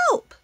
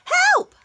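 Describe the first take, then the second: First: It is said quietly. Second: It is said very loudly.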